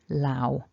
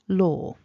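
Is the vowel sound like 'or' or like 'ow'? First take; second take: ow; or. First: The vowel sounds like 'ow' with a w. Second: The vowel sounds like 'or' with no w. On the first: The speaker calls it wrong. "people saying things like lao with an ow" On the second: The speaker calls it right. "Law is what we're aiming for"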